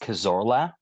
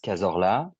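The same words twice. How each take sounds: First: The name is said with an English accent. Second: The name is said with a French accent. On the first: "if I had to say it in an English way" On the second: "the French way would be"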